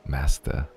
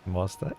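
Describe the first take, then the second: First: It is said coolly and with a straight face. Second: It is said awkwardly, breaking the serious tone. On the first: The speaker plays the role without hesitation. "It's so cool. Like" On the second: The speaker cannot keep the role going. "I'd be like, ... and I would break character"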